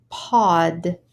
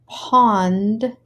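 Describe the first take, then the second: First: Pod with no n, short and plain; no n sound. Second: Pond with the n clearly heard before d; clear n sound. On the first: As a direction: say pod without any n. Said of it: "and pod". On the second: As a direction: stress the n in Pond. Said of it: "Our first word pair is pond". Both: Shown as a demonstration.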